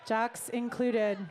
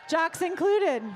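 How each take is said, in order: First: Slow, lower-pitched repeat; slow aside. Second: Loud, punchy call to the whole room; emphatic announcement. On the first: Host repeating that jocks are included, slow low aside. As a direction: draw it out, dropped down low. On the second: Host telling everybody there's room for jocks, loud emphatic announcement. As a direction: call it out brightly to the crowd. Host rallies the crowd, then repeats it. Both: Real, not acted.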